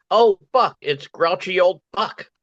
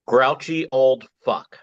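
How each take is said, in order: First: High-pitched mock alarm at a superhero; mock onlooker exclamation. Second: Slow, deliberate superhero name reveal; announcing a name. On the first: Bystander spots the superhero, high mock-startled cry. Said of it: "As in". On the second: Acted. Poet unveils his superhero name, slow announcement. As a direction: present the name with weight, drawing it out. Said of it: "First, the name".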